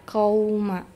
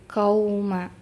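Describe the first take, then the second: No difference in how they are said.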